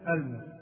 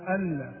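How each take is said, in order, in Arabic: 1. النون قصيرة وغير مشدّدة. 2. النون قصيرة وغير مشدّدة.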